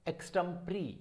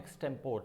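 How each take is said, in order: First: Extempore ending in "pree"; correct pronunciation. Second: Extempore with silent final e; wrong pronunciation. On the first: Teacher revealing the right form, extempore as "eks-tem-pree". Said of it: "this is". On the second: Teacher rejecting the popular form, extempore as "eks-tem-pore". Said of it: "this is not extempore". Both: Shown as a demonstration.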